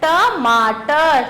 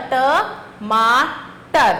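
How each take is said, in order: First: Slow syllable by syllable. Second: Stretched out sounding. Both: Shown as a demonstration. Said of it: "अगला चित्र किसका है?".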